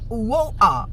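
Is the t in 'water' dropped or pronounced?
dropped. The t in water is dropped. "lá em Londres, eles vão falar"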